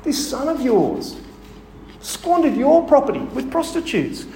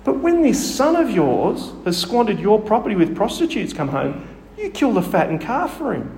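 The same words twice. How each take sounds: First: Higher, slow, sneering bitter complaint; resentful elder son lashing out at his father; vitriolic. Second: A touch of bitterness in the reading; lightly voiced resentful elder son; mild resentful complaint. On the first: Retold or imitated. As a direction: spit out the accusation against the brother. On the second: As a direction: read the grievance with restrained edge. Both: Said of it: "You can hear the vitriol in his voice".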